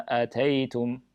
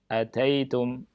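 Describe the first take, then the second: No difference in how they are said.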